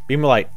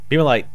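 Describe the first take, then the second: Both takes have the same delivery.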